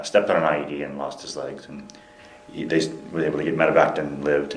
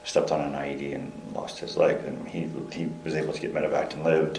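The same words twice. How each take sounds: First: Slightly firmer volume, still conversational; speaking up. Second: Too quiet. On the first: Interviewee retelling the injury after a request, speaking up. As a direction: retell it audibly, a little projected. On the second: Interviewee recounting a captain's injury, too quietly. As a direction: recount it softly, under full voice. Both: Real, not acted. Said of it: "speak a little louder".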